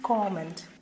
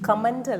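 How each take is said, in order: First: The stress is on the first syllable. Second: The stress is not on the first syllable. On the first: The speaker calls it right. "The stress is on the first syllable" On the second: The speaker calls it wrong. "അല്ല"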